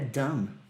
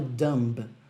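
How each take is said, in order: First: The final B sound is silent. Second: The final B sound is pronounced. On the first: The speaker calls it right. "é dumb" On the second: The speaker calls it wrong. "não é pronunciado dumb"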